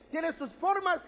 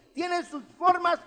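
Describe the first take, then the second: First: Formas said higher with a falling close; stress on formas. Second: Formas drawn out slow and higher; stress on formas. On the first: Preacher repeating for the flock, formas stressed. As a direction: land firmly on formas. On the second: Preacher to congregation, stressing formas slowly. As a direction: lean on the word formas, slowly. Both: Shown as a demonstration. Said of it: "escucha bien".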